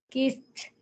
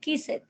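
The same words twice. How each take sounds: First: The ending sounds like a plain t. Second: The ending is an extra syllable. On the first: The speaker calls it right. "entonces ya va a sonar es como una T, pero voiceless" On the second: The speaker calls it wrong. "tú no puedes decir kissed"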